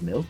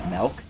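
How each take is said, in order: First: It uses the pronunciation the classmates expected. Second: It uses the speaker's own dialect pronunciation. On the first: "instead of milk" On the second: "I pronounced it milk"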